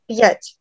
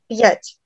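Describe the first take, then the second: First: The vowel has a faint y-like glide in it. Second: The vowel has a faint y-like glide in it.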